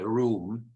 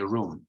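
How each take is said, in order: First: The vowel is long and drawn out. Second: The vowel is short and clipped. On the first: "I personally pronounce it in a long way" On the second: "some people, generally Americans, I think, say room"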